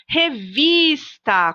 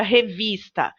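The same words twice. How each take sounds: First: Exaggerated long VIS in revista; stress on VIS. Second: Said in the usual way. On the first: Shown as a demonstration. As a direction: punch and stretch the VIS in revista. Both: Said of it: "Qual é a sílaba que eu falo com mais força?".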